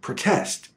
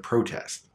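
First: The stress is on the second syllable. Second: The stress is on the first syllable. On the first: It is used as a verb. "If a verb is two syllables, it's almost always stressed on the second sound" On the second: It is used as a noun. "our only way to know the difference is the stress"

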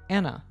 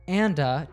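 First: The d sound is dropped and words merge. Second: The d sound is pronounced clearly.

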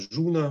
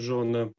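First: The first vowel sounds like 'u'. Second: The first vowel sounds like 'o'. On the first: This is the local dialect form. "Рефлексы «о» перед носовыми согласными здесь мы находим в основном «у»" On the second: This is the standard form. "вместо"

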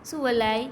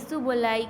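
Both takes have the same delivery.

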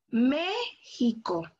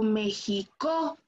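First: The stress is on the first syllable. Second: The stress is on a later syllable. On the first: The speaker calls it right. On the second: The speaker calls it wrong.

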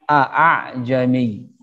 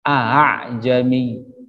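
First: Both glottal stops are pronounced fully. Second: The second glottal stop is softened. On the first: This is the original underlying form. "asalnya adalah juga dua hamzah" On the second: This is the only accepted recitation here. "Namanya tashil. Hamzah keduanya diperlingan"

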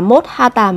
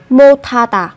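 First: The final s and h stay separate sounds. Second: The final s and h merge into aspirated t. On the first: The speaker calls it wrong. "Không phải là 못하다" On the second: The speaker calls it right. "Các bạn sẽ phát âm thành âm thờ, sẽ là 못하다"

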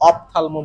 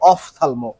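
First: The first syllable has a plain p sound. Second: The first syllable has an f sound. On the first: The speaker calls it wrong. "অফথালমো বলে না ভাইয়া" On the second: The speaker calls it right. "এটা হবে অফথালমো, OPH আছে"

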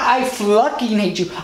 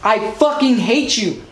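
First: The swear word is said with an L sound after the F. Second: The swear word is said with no L sound after the F. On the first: The speaker calls it wrong. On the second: The speaker calls it right. "That's how you say it"

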